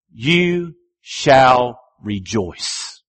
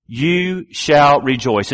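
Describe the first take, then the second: First: "You shall rejoice" drawn out very slowly, each word weighted; slow solemn emphasis. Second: Said in the usual way. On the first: Shown as a demonstration. Preacher stressing the repeated phrase, slow and weighty. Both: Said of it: "phrases that you see repeated".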